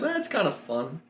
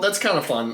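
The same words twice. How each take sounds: First: It is said with lively excitement. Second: It is said flatly, without excitement. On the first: The speaker calls it right. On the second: The speaker calls it wrong.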